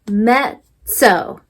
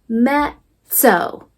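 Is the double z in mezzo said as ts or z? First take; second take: ts; ts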